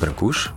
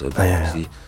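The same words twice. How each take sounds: First: The name is pronounced the Romanian way. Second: The name is pronounced the French way. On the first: This is the official form in the original language. "Officieel in het Roemeens is het Brancusi" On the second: This is how the bearer himself said it in France. "hij zelf in Frankrijk, hij zei het ook als Brancusi"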